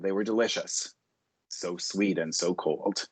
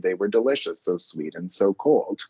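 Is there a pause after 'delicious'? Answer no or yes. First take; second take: yes; no. First: There is a short break after delicious. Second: It flows on after delicious without a break.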